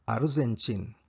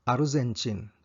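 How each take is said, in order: The two takes are said the same way.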